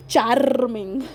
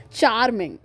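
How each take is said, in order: First: CHARMING in an Indian accent with a long rolled R. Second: Said in the usual way. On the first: Shown as a demonstration. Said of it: "why am I talking in this Indian accent". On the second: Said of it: "talking in this Indian accent".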